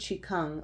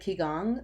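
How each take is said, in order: First: It is said with a Chinese-style pronunciation. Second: It is said with an English-style pronunciation.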